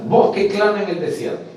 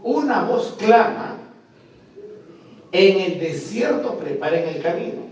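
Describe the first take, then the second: First: "Voz que clama en el desierto" todo seguido y fuerte; cita proclamada. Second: "Una voz clama" lento y agudo, pausa larga, luego "en el desierto preparen el camino" seguido; pausa tras "clama". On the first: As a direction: une "clama" con "en el desierto", voz alta. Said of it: "se dice así". ("Voz que clama en el desierto" de un tirón, con fuerza) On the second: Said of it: "El texto hebreo dice". ("Una voz clama" elevado, gran pausa antes de "en el desierto") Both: Shown as a demonstration.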